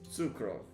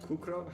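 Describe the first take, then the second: First: The name begins with a ts sound. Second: The name begins with a k sound. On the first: The speaker calls it right. "Okay, so it's Sukrov" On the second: The speaker calls it wrong. "It's not Kukrov?"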